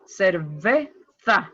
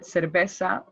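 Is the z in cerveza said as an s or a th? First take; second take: th; s. First: The z is pronounced like English th. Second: The z is pronounced like English s. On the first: This is how some people in Spain say it. "some people say in Spain cerveza with a th" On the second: This is how it is said in America. "in America you can hear cerveza like it sounds like an S"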